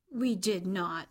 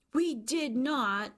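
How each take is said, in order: First: Brisk, understated protest; mild denial. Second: Higher, slow, drawn-out protest; emphatic denial. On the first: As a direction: deny it briefly at normal pitch. Children deny father's playful claim. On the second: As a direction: stretch out the indignant child's denial. Children repeat denial more emphatically. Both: A narrator's reading.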